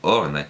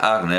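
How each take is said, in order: First: The name begins with a rounded 'o' vowel. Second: The name begins with an open 'a' vowel. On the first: "sino será más bien Orne" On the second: "Seguramente no se pronuncia Arne"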